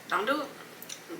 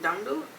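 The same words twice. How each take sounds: First: Slow, soft "Don't do it."; hushed, drawn-out "Don't do it."; soft warning. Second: Said in the usual way. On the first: Real, not acted.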